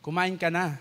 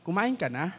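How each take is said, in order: First: "Kumain ka na." said flat with a falling end, like a command; falling statement tune, heard as a scolding order. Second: "Kumain ka na?" with a rising end, as a gentle question; rising tune, a caring question. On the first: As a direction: drop the pitch at the end of "Kumain ka na." so it sounds blunt. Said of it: "Yung palang gustong sabihin, patanong". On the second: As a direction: lift the pitch on the last word of "Kumain ka na?". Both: Shown as a demonstration.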